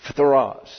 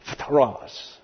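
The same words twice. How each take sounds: First: Phthros clipped fast, fth run together; crisp pronunciation demo. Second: Phthros with fth cluster sounded out slowly; slow pronunciation demo. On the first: Teacher repeating the Greek word for the class, crisper. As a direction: say Phthros briskly. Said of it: "You got that?". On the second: Teacher modelling the Greek word for the class, slow. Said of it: "let's try to pronounce those". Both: Shown as a demonstration.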